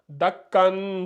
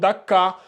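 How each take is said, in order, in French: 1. Le mot se termine par un son n. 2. Le mot se termine par une voyelle a longue. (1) "Ça donne dakkan" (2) "on remplace ce dernier-là par le mad bil alif"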